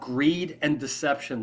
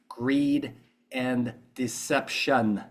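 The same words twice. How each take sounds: First: It keeps the sentence's ordinary volume and tone. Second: It shifts to a different volume and tone.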